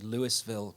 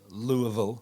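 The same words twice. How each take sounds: First: It is pronounced in a British way. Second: It is pronounced in a local Kentucky way. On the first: "we would call it, say" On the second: "is one of the local ways"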